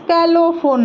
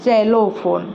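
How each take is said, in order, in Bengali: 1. শব্দটি sk ধ্বনি দিয়ে শুরু হয়। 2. শব্দটি z ধ্বনি দিয়ে শুরু হয়। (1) "ଏଇଟା ସ୍କାଲୋ ଫୋନ୍ ନୁହେଁ" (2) "ଏଇଟା ହେଲା ଜେଲୋ ଫୋନ୍"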